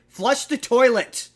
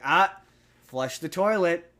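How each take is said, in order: First: It is said in an irritated tone. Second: It is said in a calm, mild tone.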